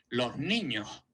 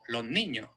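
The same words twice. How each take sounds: First: The s at the end of los becomes a breathy h. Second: The s at the end of los is not pronounced. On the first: "eso es muy de Andalucía" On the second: "no pronunciar la S en absoluto"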